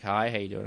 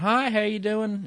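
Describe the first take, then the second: First: Said in the usual way. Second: High-pitched Southern greeting; southern accent. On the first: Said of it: "and I'm like". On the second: Retold or imitated. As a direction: greet someone in a higher Southern twang. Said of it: "He has this southern accent".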